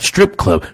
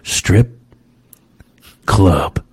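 First: The two words run together with no pause. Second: There is a short pause between the two words. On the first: It refers to a strip club. The speaker calls it wrong. "Not strip club" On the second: It refers to the Strip and then to clubs. The speaker calls it right. "I had to just put the comma there"

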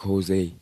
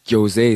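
First: The name begins with an H sound. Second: The name begins with a J sound.

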